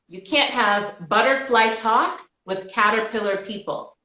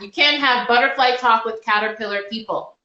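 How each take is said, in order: First: It is said at normal volume. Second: It is said more loudly.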